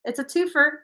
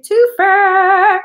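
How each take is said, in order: First: Said in the usual way. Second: "twofer" blurted out high and loud; excited shout. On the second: Real, not acted. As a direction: throw "twofer" out with a burst of excitement. Repeats "twofer" emphatically.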